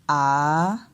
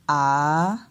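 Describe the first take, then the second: First: The pitch dips and then rises. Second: The pitch dips and then rises.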